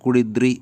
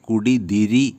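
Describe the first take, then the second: First: The vowel between d and r is dropped. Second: The vowel between d and r is pronounced. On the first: It is the shortened form used in fast speech. "പെട്ടെന്ന് സംസാരിക്കുമ്പോൾ" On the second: It is the full form used in respectful speech. "ബഹുമാനത്തോടെ സംസാരിക്കുമ്പോൾ വരുന്ന"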